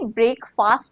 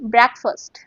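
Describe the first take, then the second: First: The first part sounds like the word 'break'. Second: The first part does not sound like 'break'. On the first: The speaker calls it wrong. "आप बोल सकते हैं ब्रेक, ... पर ये ब्रेक फास्ट नहीं है" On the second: The speaker calls it right. "You have to से ब्रेकफास्ट"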